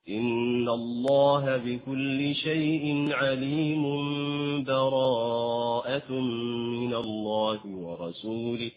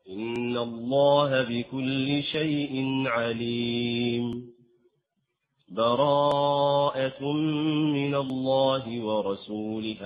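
First: The verses run together, with n turning to m. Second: There is a full stop with a breath. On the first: "أو أن تصل وهنا تأتي بالإقلاب" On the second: "هذا الوقف"

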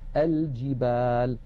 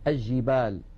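First: The L is pronounced clearly before the J. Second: The L merges into a doubled J sound. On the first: The speaker calls it right. "لابد من بيان اللام، فنقول" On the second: The speaker calls it wrong. "يجعلون اللام عند الجيم شمسية"

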